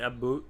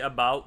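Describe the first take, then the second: First: It is said in a Canadian accent. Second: It is said in a plain American accent.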